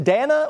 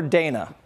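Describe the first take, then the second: First: Dana said DAN-uh, rhyming with banana; short A in Dana. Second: Dana said DAY-nuh; long A in Dana. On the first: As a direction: say Dana with the A of "cat". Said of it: "Rhymes with banana". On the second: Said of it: "Is it Dana or Dana?". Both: Shown as a demonstration.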